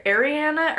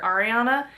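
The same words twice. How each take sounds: First: "Ariana" as air-ee-AN-uh; first pronunciation variant. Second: "Ariana" as ar-ee-AH-nuh; second pronunciation variant. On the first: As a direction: say "Ariana" with an "air" start and "Anna" ending. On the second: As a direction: say "Ariana" with open "ah" vowels. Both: Shown as a demonstration. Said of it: "depending on how you pronounce".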